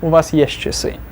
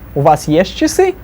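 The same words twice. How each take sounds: First: The pitch falls at the end. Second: The pitch rises at the end. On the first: It states that the listener has a watch. "to a statement" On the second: It asks whether the listener has a watch. "from a question, rising intonation"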